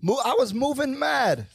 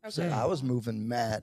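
First: It is said in a put-on British accent. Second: It is said in the speaker's normal accent.

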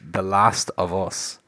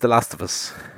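First: Each word is said clearly and separately. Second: The words run together like one word. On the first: "I'm now making a point to enunciate differently" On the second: "everybody pronounces it like Festivus"

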